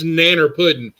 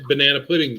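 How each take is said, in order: First: The first syllable is dropped, giving nanner. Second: All three syllables of banana are pronounced. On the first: It is the way Southerners say it. "It's nanner pudding" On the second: It is said so an outsider can understand. "I said it in a way you could understand"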